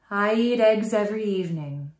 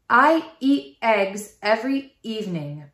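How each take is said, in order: First: The first word starts with a soft h. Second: Each vowel starts with a hard glottal catch. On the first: The speaker calls it right. "use a little small h to start the word" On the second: The speaker calls it wrong. "A glottal attack sounds like this"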